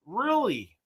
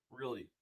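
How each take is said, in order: First: High, rising disbelief on Really?; a quick startled Really? going up high; surprised really. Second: Really? said low and much softer; flat deadpan really. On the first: Viewer says keep ranting, surprised high Really?. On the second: After the super chat, a soft, flat deadpan Really?. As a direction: let Really? drop, flat and quiet. Repeats, deflated second take. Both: Real, not acted.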